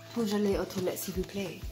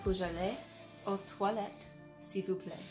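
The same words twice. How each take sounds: First: The sentence is spoken at a normal pace. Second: The sentence is spoken slowly.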